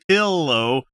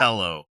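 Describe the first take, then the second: First: It is said with the standard vowel. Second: It is said with the local Utah vowel. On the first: The speaker calls it right. "you're not saying pillow" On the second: The speaker calls it wrong. "You're saying so, milk and pillow"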